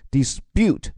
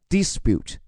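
First: The stress is on the second syllable. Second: The stress is on the first syllable. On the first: "重音既可以放在dispute 第二个音节上" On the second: "也可以放在最前面dispute 都可以"

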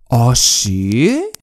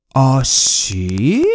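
No difference in how they are said.

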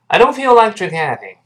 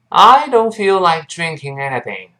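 First: The sentence is said quickly with a reduced I. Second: The sentence is said at a moderate, careful pace. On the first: "读得更快一些，那个I 就又变成了弱化" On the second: "跟老师再读一遍"

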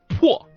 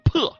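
First: The vowel is a rounded o sound. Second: The vowel is an unrounded e sound.

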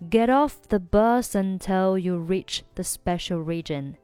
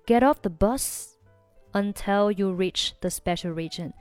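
First: Bus runs straight into until without pause. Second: There is a short pause after bus. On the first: "如果选择连读就是" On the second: "你也可以选择不连的话呢就中间停顿一下"

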